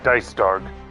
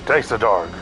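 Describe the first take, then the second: First: The name is said with two syllables. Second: The name is said with three syllables. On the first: The speaker calls it right. "You don't pronounce the E as a as a in German" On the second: The speaker calls it wrong. "Or sorry"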